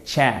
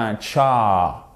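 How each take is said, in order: First: Tcha with short A leaning toward French è; English "tcha", vowel between A and è. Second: Tcha with a drawn-out, open French A; wrong open A. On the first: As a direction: say Tcha from the back of the mouth, toward "tchè". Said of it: "vous le faites avec l'arrière de la bouche". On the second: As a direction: stretch tcha on a plain "ah". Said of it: "c'est pas un tcha". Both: Shown as a demonstration.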